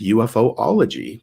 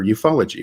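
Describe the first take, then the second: First: U, F, O are said as separate letters. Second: UFO is said as one blended word.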